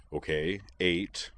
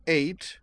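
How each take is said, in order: First: Conceding. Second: High, indignant correction. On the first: Moose accepts Edward's corrected ticket count, conceding. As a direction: give in without fuss. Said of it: "Moose conceded". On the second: Edward corrects Moose's ticket count, indignant. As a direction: correct them, piqued and higher. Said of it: "said Edward indignantly". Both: A narrator's reading.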